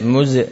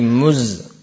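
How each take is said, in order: First: The z ends with a small bouncing echo. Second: The z stops cleanly with no echo. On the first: The speaker calls it wrong. "jangan sampai muz" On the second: The speaker calls it right. "tapi muz"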